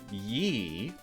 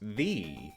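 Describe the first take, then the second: First: The word begins with a 'y' sound. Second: The word begins with a 'th' sound. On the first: The speaker calls it wrong. "which I'm pronouncing that way for convenience, isn't pronounced how it looks" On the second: The speaker calls it right. "It's pronounced the"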